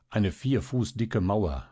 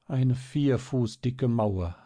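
First: Said in the usual way. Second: Put-on slow, higher, wistful child's echo; sighed. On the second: A narrator's reading. Marie repeating the news to herself, slow sigh. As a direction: sigh it slowly to yourself. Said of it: "seufzte Marie leise vor sich hin".

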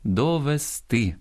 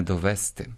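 First: Довести stressed on the final -ТИ; correct stress. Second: Довести stressed on the middle -ВЕС-; wrong stress. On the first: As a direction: slowly lift the last syllable of довести. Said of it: "дуже поширена помилка". (наголос на останньому складі: довести) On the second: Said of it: "а не довести". (наголос на другому складі: довести) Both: Shown as a demonstration.

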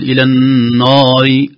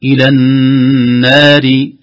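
First: "إلى النار" said slowly, without the long chanted madd; a shortened "إلى النار"; wrong reading. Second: "إلى النار" chanted slowly, the vowel held long; correct recitation. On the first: ("إلى النار" بلا مد كامل) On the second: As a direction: draw out "إلى النار" with full madd. (مد "إلى النار" مدا طويلا) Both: Shown as a demonstration. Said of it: "لا نقول".

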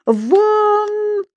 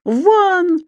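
First: Very high, long-held cry; angry shout. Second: High, shorter angry cry; louder yell. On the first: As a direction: yell him out, drawing the word long. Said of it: "побагровев от гнева, закричал старший преподаватель". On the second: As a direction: scream at him to get out. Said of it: "ещё громче завопил господин Стукин Крик". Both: A narrator's reading.

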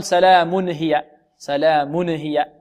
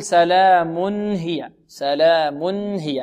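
First: سلام هي with the n bounced, salāmune-hiya; wrong bounced tanwin. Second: سلام هي slow, clean held n before ه; correct tanwin. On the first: Teacher showing the error, bouncing the n of سلام هي. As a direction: add a tiny vowel after the n in سلام هي. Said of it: "نقلقل، حرك التنوين، لا". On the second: Teacher modelling for students, clear still n in سلام هي. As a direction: say salāmun hiya with a clear, unbounced n. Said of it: "هكذا نطقها". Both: Shown as a demonstration.

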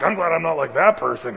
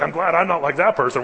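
First: Louder, higher smug mock voice again; smug Pharisee. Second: Louder, higher smug mock voice; smug Pharisee. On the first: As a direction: preen as the Pharisee once more. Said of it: "Well, like". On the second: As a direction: preen like a self-satisfied Pharisee. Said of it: "he's like".

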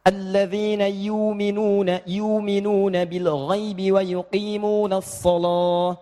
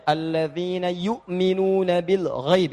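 First: Slow chanted Warsh reading with long vowel in yu'minuna; slow melodic chant in the Warsh style; Warsh recitation. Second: Slow chanted recitation with short yu'minuna; slow melodic Quran chant. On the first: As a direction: recite "yu'minuna" drawn long without the hamzah. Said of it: "Kalau di Warash". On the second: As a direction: recite "yu'minuna" slowly with a normal short hamzah. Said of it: "saya baca Al-Baqarah ayat tiga". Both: Shown as a demonstration.

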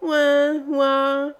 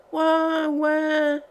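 First: Louder, high piping imitation of a baby crying; mock baby squeal. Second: High, whiny imitation of a crying baby; mock baby wail. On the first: Tipsy maid mimicking the baby once more, louder mock squeal. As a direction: squawk it again like the infant, overdone. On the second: Tipsy maid imitating the newborn's crying, mock wail. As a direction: squeal it like a newborn, hammed up. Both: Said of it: "piailla encore une fois".

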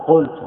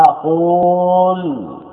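First: Said in the usual way. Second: قلت with a very long, held "uu" before the l; slow, sustained "quuul-tu" for قلت; underlying long vowel. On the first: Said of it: "أين العين؟ حذفت". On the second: Shown as a demonstration. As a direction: stretch the hidden waw in قلت, almost chanted, then drop on "tu". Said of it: "أصلها قلت".

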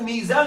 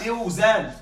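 First: Said in the usual way. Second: ميوزان said "miw-zān", with the w sounded; ميوزان with a drawn-out "miw" before zān; original root form. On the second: Shown as a demonstration. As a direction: glide from i into w in ميوزان. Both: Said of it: "أصلها ميوزان".

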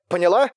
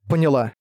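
First: «поняла?» высоко, с подъёмом в конце; требовательно спроси «поняла?», поднимая тон; вопрос-проверка. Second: «Поняла» ровно, с падением в конце; подтверди «Поняла», опуская тон; утвердительный ответ. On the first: Вопрос, затем ответный повтор слова. (вопросительное «поняла?») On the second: (утвердительное «Поняла») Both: A narrator's reading.

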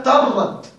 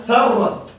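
First: ترت with a plain ta instead of tha, slow and higher; ترت said as the mistaken reading with ta; slow teacher's demo of the wrong reading ترت; wrong ta sound. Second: ثرت with a clear tha, the tongue between the teeth, said slowly; ثرت carefully voiced with the interdental th, not ta; slow teacher's demo of ثرت with tha; correct tha sound. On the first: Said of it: "ربما تظن أنها ترت". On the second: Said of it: "فللدقة قال بالثاء المثلثة". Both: Shown as a demonstration.

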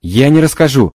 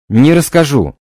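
First: Loud desperate refusal. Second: Loud desperate refusal, stranger voice. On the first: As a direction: cry out you will never tell. Spirit refuses to tell. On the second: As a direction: repeat the refusal in another voice. Repeated refusal. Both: Acted.

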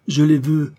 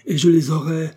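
First: Higher and louder, insisting on les; demanding. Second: Higher and louder, stressing je; defiant. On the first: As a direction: hammer home that he wants them. (exigence furieuse du fils, plus aiguë et plus forte) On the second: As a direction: swear he will have them. (défi furieux, plus aigu et plus fort) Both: A narrator's reading. Son demands the diamonds.

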